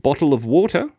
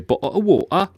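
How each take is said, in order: First: The t is fully pronounced in an Australian accent. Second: The t becomes a glottal stop in an English accent.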